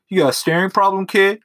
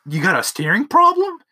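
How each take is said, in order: First: Higher, louder mock-tough challenge; tough guy threat. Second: Much higher, louder sneering replay of the threat; mocking the movie line. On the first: Narrator catches a kid staring at his eye, mock tough-guy threat. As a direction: bark it at the kid like a movie heavy. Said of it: "I'm gonna go ahead and be a scary dude". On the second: Brother repeats the narrator's threat, mocking parody. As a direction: parrot the line back like it's ridiculous. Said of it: "that one movie line of".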